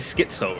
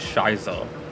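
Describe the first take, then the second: First: The name begins with an 'sk' sound. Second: The name begins with an 'sh' sound. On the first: The speaker calls it right. "but it would be Schizo, right?" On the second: The speaker calls it wrong. "I've always pronounced it Shizo"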